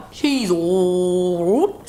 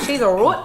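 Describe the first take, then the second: First: Slow drawn out. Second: Said in the usual way. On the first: Shown as a demonstration. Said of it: "repeats drawn out". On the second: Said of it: "repeats the phrase".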